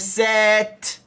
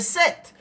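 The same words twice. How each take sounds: First: The word is drawn out slowly, sound by sound. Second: The word is said quickly and sharply as one unit. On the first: The speaker calls it wrong. "I don't say set" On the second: The speaker calls it right. "I say set, which means set is, is very quicker, sharper"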